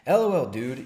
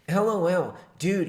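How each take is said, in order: First: It is read in an ordinary, non-nasal voice. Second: It is read in an exaggerated nasal voice. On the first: The speaker calls it wrong. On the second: The speaker calls it right.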